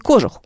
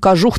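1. Ударение на первом слоге. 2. Ударение на втором слоге. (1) "он не кожух" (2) "он кожух на самом деле"

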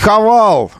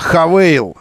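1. В последнем слоге гласная 'a'. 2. В последнем слоге гласная 'ey'. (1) "не Хавал" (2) "а Хавейл"

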